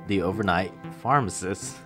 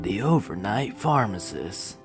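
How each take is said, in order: First: It is said in a normal voice. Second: It is said in a spooky voice.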